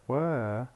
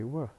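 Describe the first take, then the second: First: The word has a full, clear vowel. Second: The word has a reduced schwa vowel. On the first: "Instead of saying were" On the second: "were plus schwa"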